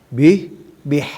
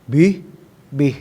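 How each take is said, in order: Both takes have the same delivery.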